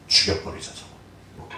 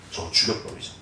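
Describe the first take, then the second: First: Whispered murder plot, much softer; conspiratorial whisper between brothers; plotting whisper. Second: Hushed, voiceless and much softer, lower; a conspiratorial whisper; plotting whisper. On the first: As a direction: hush it like a secret plan to kill. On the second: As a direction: breathe it like a secret among brothers. Brothers plot murder secretly. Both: Retold or imitated.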